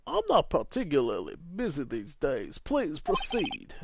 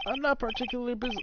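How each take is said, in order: First: Grand, drawn-out lawyer voice; measured, swooping theatrical delivery; pompous older lawyer. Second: Higher, quick character read; light, hurried higher voice; wrong character's voice. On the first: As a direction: play a self-important attorney, unhurried. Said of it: "that's him". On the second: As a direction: read it high and brisk. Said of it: "Oh, wait, no, that's him". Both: Acted.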